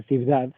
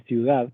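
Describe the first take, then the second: First: "ciudad" with a b for the u, "cibdad"; pronunciación incorrecta. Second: Said in the usual way. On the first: Shown as a demonstration. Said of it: "no se dice ciudad". ("ciudad" con b: "cibdad") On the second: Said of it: "se lee ciudad".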